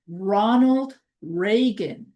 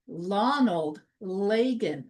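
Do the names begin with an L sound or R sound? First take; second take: R sound; L sound. First: The names begin with an R sound. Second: The names begin with an L sound. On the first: The speaker calls it right. "instead of saying Ronald Reagan" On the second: The speaker calls it wrong. "as if it's an L"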